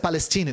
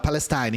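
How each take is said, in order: First: The last syllable has an 'ee' vowel. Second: The last syllable has an 'eye' vowel. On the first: The speaker calls it wrong. "A pronúncia é Palestine? Não" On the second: The speaker calls it right. "Em inglês eles falam com I"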